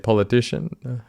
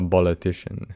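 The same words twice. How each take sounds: First: The word begins with a P sound. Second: The word begins with a B sound. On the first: "You thought you knew how to say politician?" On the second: "It's in fact a politician"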